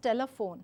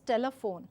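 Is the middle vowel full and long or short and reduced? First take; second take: reduced; reduced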